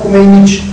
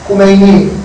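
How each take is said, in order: First: The word ends with an added "j" sound. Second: The word ends in a plain "i" vowel. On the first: This is how certain tribes say it in their dialect. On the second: This is the standard form of the word. "Kumeyni diye ne diyorlar?"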